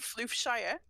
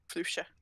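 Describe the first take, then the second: First: The ending is a full 'shire' syllable. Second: The ending is a reduced 'sher' syllable. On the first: "I like the idea of it being Floofshire because I can return to the Shire" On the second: "Floofshire in my accent. Floofshire, like Yorkshire"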